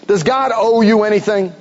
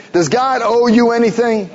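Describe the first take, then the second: First: Said in the usual way. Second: Repeated with the word "you" pressed hard and the question pushed at the congregation; stress on you. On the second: Real, not acted. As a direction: lean on "you" as if they missed it. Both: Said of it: "Well, you didn't hear me?".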